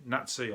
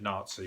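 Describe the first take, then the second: First: NAZI with a short flat 'a', NAT-see; short 'a' as in cat in Nazi; Birmingham pronunciation. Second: NAZI with a long 'ah', NAHT-see; long open first vowel in Nazi; common pronunciation. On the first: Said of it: "I say from Birmingham". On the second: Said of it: "that's what most people will understand". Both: Shown as a demonstration.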